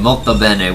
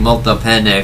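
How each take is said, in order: First: The second word sounds like bene. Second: The second word sounds like pene. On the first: It means very good. The speaker calls it right. "which actually means like very good" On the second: It means very penis. The speaker calls it wrong. "he's actually saying basically very penis"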